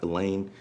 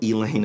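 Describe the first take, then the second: First: The name is said the usual standard way. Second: The name is said the local Southern way. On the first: This is not how the town's name is said. The speaker calls it wrong. "and not Elaine" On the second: This is how the town's name is actually said. The speaker calls it right. "it's called Elaine ... Just a Southernism"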